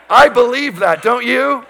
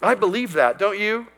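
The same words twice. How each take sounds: First: Much louder and higher, rallying the crowd; preacher raising his voice for a response; louder challenge. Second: Said in the usual way. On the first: Shown as a demonstration. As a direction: call it out to wake the congregation. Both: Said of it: "Two or three of you do".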